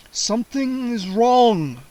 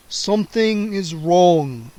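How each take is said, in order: First: Slow, higher puzzled vampire voice. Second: Slow, soft-spoken vampire repeat. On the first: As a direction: voice the count baffled. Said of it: "Count Nightwing said". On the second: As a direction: repeat it quietly to himself. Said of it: "the vampire repeated softly". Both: A narrator's reading.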